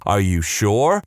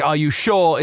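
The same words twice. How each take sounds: First: "Are you sure?" as a simple rising question; plain question. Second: "Are you sure?" in a regional accent, higher and falling, "sure" like "Shaw". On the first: People ask if the name is really spelt that way, rising. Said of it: "Which sounds exactly like". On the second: Speaker shows how the question sounds like the name in a regional accent. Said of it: "in my regional accent". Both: Shown as a demonstration.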